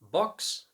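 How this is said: The vowel is rounded, British style. "the rounded vowel O"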